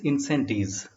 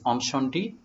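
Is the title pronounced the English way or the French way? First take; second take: English; French. First: The title is said with an English pronunciation. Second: The title is said with a French pronunciation.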